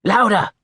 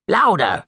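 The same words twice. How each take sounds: First: "Louder!" pushed higher and louder, falling hard; the master's patience snaps; second, more impatient call for volume; louder insistent command. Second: High, loud cry of "Louder!" falling sharply; the master cries out to the mumbling boy; first insistent call for volume; loud command. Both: A narrator's reading. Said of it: "cried the master".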